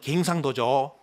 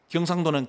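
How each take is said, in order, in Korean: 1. 첫 모음은 방언 'ae' 소리입니다. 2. 첫 모음은 표준 'eo' 소리입니다.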